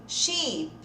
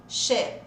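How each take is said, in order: First: Sheep with a long, stretched "ee"; long I sound. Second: Sheep said short, like "shep" with closed ê; short E sound. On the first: Teacher contrasts the two written words, long ee. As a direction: spread and hold the í in "sheep". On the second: Teacher contrasts the two written words, short ê. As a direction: cut the vowel to a short ê in "sheep". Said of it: "Coloca o som de E". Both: Shown as a demonstration.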